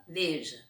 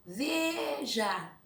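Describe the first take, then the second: First: Said in the usual way. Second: Veja with VE held long and high; stress on VE. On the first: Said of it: "pra vocês pronunciar e marcar". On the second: Shown as a demonstration. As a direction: stretch out the VE of veja. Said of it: "vocês vão pronunciar".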